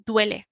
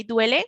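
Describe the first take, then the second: First: "Duele" said flat, falling at the end; statement tune on "Duele". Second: "Duele?" lifted at the end as a question; rising question tune on "Duele?"; question rise. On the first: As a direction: state "Duele" plainly, no lift. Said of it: "if we're stating something hurts". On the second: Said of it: "our voices kind of lift a little bit towards the end". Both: Shown as a demonstration.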